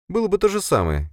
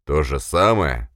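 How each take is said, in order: First: Much higher voice, explaining herself; Sofia, composed subordinate. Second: Incredulous echo. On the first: Sofia excuses her failure to the boss, composed. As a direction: answer back in a high, restrained voice. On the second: Boss echoes subordinate's excuse, incredulous. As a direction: throw the excuse back slowly, in disbelief. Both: Acted.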